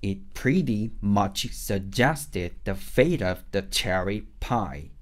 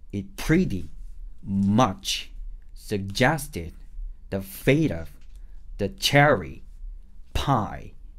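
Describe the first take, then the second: First: The words flow together slowly like natural speech. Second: Each word is punched hard with breaks between. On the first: "조금 더 말하는 느낌으로" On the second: "호흡을 정확하게 정말 세게 완전히 몰빵하듯이 소리를 내보세요"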